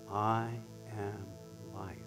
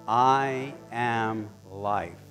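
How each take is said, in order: First: It is said very softly. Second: It is said at normal volume.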